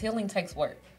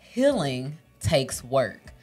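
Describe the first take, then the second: First: It is said at normal pace and volume. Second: It is said slowly, loudly and crisply.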